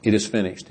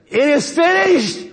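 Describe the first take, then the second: First: Said in the usual way. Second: High, drawn-out triumphant cry; dying yell. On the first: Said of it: "he's now able to say". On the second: Acted. Preacher acting Jesus's last cry from the cross, yelled. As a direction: yell it out slowly, far higher than usual. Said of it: "And he yells out".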